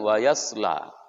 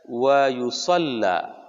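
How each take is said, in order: First: The L sound is single and short. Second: The L sound is doubled and held. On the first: This is the common reading. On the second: This is an accepted alternative reading.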